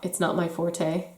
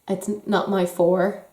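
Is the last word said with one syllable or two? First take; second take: two; one. First: The last word has two syllables. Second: The last word has one syllable. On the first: The speaker calls it wrong. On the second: The speaker calls it right. "that's how you should say it"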